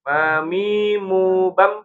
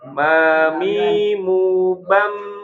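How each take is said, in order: First: The final m is rushed and cut off abruptly. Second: The final m keeps sounding before it stops. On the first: The speaker calls it wrong. "jangan kecepatan" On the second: The speaker calls it right. "Enggak langsung berhenti ya"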